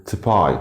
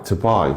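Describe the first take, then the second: No difference in how they are said.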